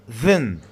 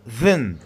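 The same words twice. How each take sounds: First: The word is said in a reduced, weak form. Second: The same.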